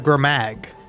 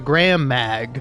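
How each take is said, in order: First: The two words merge, sharing one middle sound. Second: Both words are said separately and fully. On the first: "I'll combine those two" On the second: "rather than saying"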